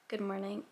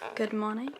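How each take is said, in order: First: It is said in an American accent. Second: It is said in a British accent.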